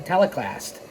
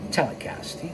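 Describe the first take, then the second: First: Said in the usual way. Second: Breathy unvoiced whisper of Telecast; whispered repeat. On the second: Shown as a demonstration. Narrator to listeners, whispering Telecast. as a hint. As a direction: whisper Telecast. again as a sly aside. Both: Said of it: "You knew what I was saying".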